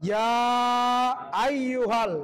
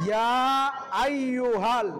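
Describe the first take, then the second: The two takes are said the same way.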